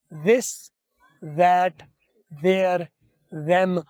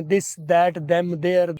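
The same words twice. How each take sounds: First: "This" without a hard d; the right way, a voiced th. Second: "this, that, them, their" with a hard dental d; the d sound people usually use; wrong way. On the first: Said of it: "जा". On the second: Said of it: "दाल बोलते हैं". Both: Shown as a demonstration.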